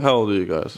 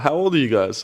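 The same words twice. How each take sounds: First: The pitch falls at the end. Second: The pitch rises at the end. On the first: It sounds like driving down a point. The speaker calls it wrong. "I'm not going to be like" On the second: It is asked as a genuine question. The speaker calls it right. "if it's a question, I'm asking"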